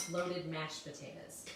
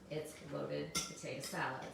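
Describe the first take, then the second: First: "mashed potatoes" stressed slowly as the wrong dish; slow, stress "mashed potatoes" to reject it; contrast stress on mashed. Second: "potato salad" stressed as the right dish; contrast stress on salad. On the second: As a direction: land firmly on "potato salad" to correct. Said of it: "It's not loaded mashed potatoes". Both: Shown as a demonstration.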